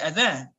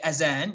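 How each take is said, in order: First: The middle consonant is a th-like sound. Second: The middle consonant is a z sound. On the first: "You probably say Adhan" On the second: "You probably don't say Adhan with a Z"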